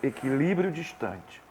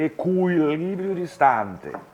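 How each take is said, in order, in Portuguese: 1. É pronunciado com sons portugueses. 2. É pronunciado com sons italianos.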